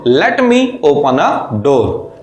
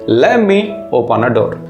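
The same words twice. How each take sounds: First: 'Let me' is said as two full words. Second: 'Let me' is run together as 'lemme'.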